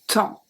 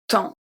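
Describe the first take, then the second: No difference in how they are said.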